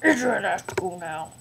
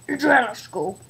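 First: Said in the usual way. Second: Pretend dad. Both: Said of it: "I'm Adriana's dad".

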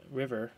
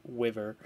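First: "River" with a clear R sound; correct River. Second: "wiver" with a W instead of R; says wiver. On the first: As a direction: say "River" with a proper R. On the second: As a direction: say "wiver", R turned into W. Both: Shown as a demonstration. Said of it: "River, not w-, wiver".

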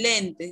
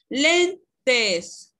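First: Said in the usual way. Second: "Lentes" split into len, tes, with LEN higher and louder; teacher's emphatic "Lentes", LEN punched, then tes; syllable by syllable. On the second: Shown as a demonstration. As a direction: sound out "Lentes" slowly as two syllables, first one strong. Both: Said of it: "¿Cuál de las sílabas suena más fuerte?".

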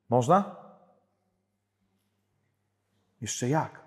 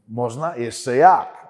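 First: John Paul II. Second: Papal catchphrase with a punched, louder answer; John Paul II. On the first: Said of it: "mało Jana Pawła drugiego oglądacie". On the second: Preacher showing the audience how the pope talks, emphatic imitation. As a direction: imitate the pope, swinging up loudly on the reply. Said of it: "On tak". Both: Retold or imitated.

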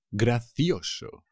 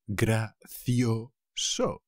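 First: Slow model word. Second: Gracioso stretched very slow, syllable by syllable; very slowly drawn out. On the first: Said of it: "teacher models the word slowly". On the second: Teacher drawing Gracioso out for students. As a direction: spell out Gracioso slowly for learners. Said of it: "teacher models the word very slowly". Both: Shown as a demonstration.

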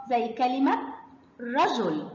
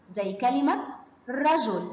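No difference in how they are said.

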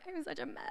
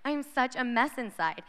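First: Tiny high, soft tearful squeak; mock tearful. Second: Said in the usual way. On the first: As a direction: squeak it softly, imitating a girl in tears. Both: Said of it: "they're, like, in tears".

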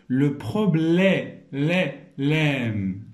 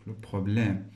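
First: "problème" drawn out slowly, its open "lème" isolated; slow teacher's sounding-out of "problème", ending on a held "lème"; syllable-by-syllable demo. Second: Said in the usual way. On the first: Shown as a demonstration. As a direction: stretch "problème", then repeat just "lè" and "lème". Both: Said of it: "غير من خلال الصوت".

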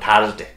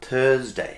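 First: "থার্সডে" as thaars-day with a full A and R; wrong hard R. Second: "থার্সডে" as thuhz-day, with an er vowel; soft R. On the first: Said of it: "অনেকেই বলেন থার্সডে". ("থার্সডে"-তে আ আর স্পষ্ট র) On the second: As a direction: let the R melt away in "থার্সডে". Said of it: "এরকম না". ("থার্সডে"-তে র প্রায় অনুচ্চারিত) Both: Shown as a demonstration.

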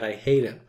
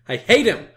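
First: Said in the usual way. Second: High, loud burst of hate; exaggerated angry yell; mock hatred. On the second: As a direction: repeat it as a hammed-up outburst, higher and louder. Repeats it as an outburst.

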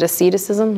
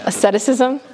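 First: "asceticism" mumbled quickly as "uh-SID-uh-sizm", tentative; half-swallow "asceticism", unsure of the word. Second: "Asceticism" said carefully as "uh-SET-uh-sizm" with a questioning rise; checking the word. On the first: Speaker to audience, fumbling a word she doubts. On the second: Speaker to audience, re-trying the word as a question. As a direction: try "Asceticism" again, carefully, asking. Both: Shown as a demonstration. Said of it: "Is that the word?".

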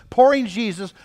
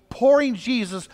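Both takes have the same delivery.

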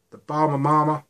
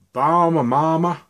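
First: High, loud mock South American accent on Bahama Mama; a second, more confident go at the South American accent; better South American accent. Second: High, loud, hammed-up South American accent on Bahama Mama; a cheesy put-on South American accent, sung out; bad South American accent. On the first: Vlogger retries the juice name in a South American accent. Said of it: "The accent's getting better". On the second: Vlogger naming a juice in a mock South American accent. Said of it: "That was a really bad sort of Southern South American accent".

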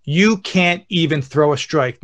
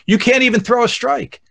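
First: Slow, spaced-out heckle; deliberate heckle. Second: Higher-pitched mock heckle; heckling. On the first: Retold or imitated. Dad prepares his kid for hecklers, slow deliberate taunt. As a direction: lay each word out slowly as a challenge. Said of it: "I'm gonna prepare you for this". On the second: Dad catching heckles his kids as they pitch, mock heckling. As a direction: needle the pitcher from behind the plate. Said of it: "I start heckling, going".

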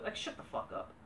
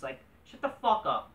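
First: Whispered under the breath; muttered aside. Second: Said in the usual way. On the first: Real, not acted. Fed up with fan praise, whispered aside. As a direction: hiss it to yourself. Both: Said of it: "rants at smarks".

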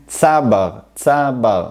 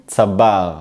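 First: צבר with the opening syllable stressed; stress on first syllable. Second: צבר with the final syllable stressed; stress on second syllable. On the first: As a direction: punch the first syllable of צבר, let the second fall. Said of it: "אני מדגיש את ההברה הראשונה". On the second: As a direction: lean on the BAR ending of צבר. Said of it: "אני מדגיש את החלק השני". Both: Shown as a demonstration.

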